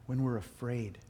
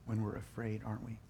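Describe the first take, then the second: First: Said in the usual way. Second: Soft, hushed echo; quietly letting it sink in; hushed repeat. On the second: Real, not acted. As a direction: drop it down to a near hush. Repeats the phrase softer.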